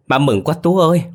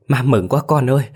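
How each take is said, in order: First: Breaking into joyful sobs, much higher and louder; sobbing with joy. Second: Tearful joy, higher pitch; mother half crying with relief, voice rising; joyful crying. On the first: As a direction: let the joy spill over into crying. (khóc vì mừng, giọng cao và to) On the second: (mừng phát khóc, giọng cao lên) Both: A narrator's reading. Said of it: "bà mừng phát khóc lên".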